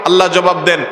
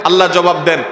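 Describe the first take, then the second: The two takes are said the same way.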